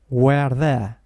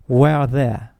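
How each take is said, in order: The two takes are said the same way.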